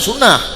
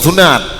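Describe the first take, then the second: First: The word ends with an h sound. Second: The word ends with a t sound. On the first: "cara ucap yang betul" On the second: "yang takun lagi kita nyobot sunat"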